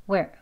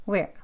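No difference in how they are said.

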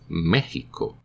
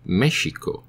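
First: The middle consonant is a throaty J sound. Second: The middle consonant is a soft sh sound. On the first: This is the current, evolved pronunciation. "the pronunciation evolved to Mexico" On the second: This is the older, original pronunciation. "so Mexico should be pronounced Mexico"

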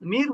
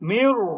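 First: The r is said light and thin. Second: The r is said heavy and full. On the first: The speaker calls it wrong. "মির বলবেন না" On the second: The speaker calls it right.

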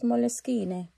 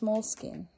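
First: It is said in an Italian accent. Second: It is said in a plain English accent.

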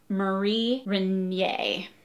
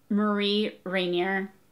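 First: The name is said with a French-style pronunciation. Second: The name is said with an English-style pronunciation. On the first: The speaker calls it right. "it's Marie Rainier because it's perhaps French" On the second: The speaker calls it wrong. "I think I would have pronounced her name"

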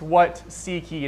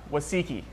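First: The words are said clearly as separate words. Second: The words run together like one word. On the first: It is the Bible question about what they want. The speaker calls it right. "It's what seek ye" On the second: It sounds like the name of a Japanese dish. The speaker calls it wrong. "And that's not a Japanese dish"

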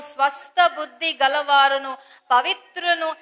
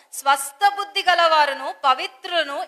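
No difference in how they are said.

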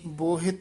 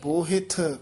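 First: The final consonant is a plain unaspirated t. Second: The final consonant is an aspirated th. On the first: The speaker calls it wrong. "ਬੋਹਿਤ ਨਹੀਂ ਕਹਿਣਾ" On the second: The speaker calls it right. "ਥੱਥਾ ਆਉਣਾ ਚਾਹੀਦਾ"

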